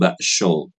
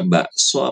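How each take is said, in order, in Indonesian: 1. Konsonan di tengah adalah bunyi sh. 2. Konsonan di tengah adalah bunyi s biasa. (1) "Ibu bacanya dengan shin, sho" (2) "baca so-nya kayak gitu... Biasa aja kayak so biasa"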